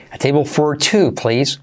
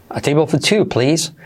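First: "for" said fully with its R sounded; clear, unreduced "for" before "two"; pronounced R. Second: "for" reduced to "fuh", no R; "for" weak and R-less before "two"; softened R. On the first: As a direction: give "for" its whole vowel and R. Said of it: "Como prefieras". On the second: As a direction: glide through "for" lightly, dropping its R. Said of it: "esa R puedes suavizarla y hacer for two". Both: Shown as a demonstration.

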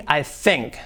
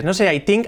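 First: "I think" with TH, tongue between teeth; soft TH. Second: "I think" said as "tink" with a hard T; mock T for TH. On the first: Teacher shows the English TH. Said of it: "que no ponemos la lengua entre los dientes". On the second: Teacher imitates the learners' error. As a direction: show the typical T instead of TH. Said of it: "Un error típico". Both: Shown as a demonstration.

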